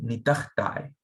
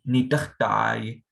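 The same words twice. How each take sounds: First: The ending is shortened to a single 'I' sound. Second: The ending is an 'ah' followed by a separate 'yi'. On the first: "shorten it to like an I sound" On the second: "often you could say ah yi"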